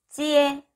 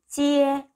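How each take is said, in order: No difference in how they are said.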